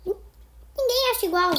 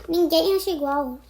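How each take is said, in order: First: "Ninguém" said higher and slower with weight; emphatic repeat. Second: Said in the usual way. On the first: Shown as a demonstration. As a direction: lean on "Ninguém", slow and high. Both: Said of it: "repeated with emphasis".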